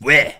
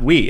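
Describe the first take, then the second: First: It is said in a Quebec French accent. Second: It is said in standard French.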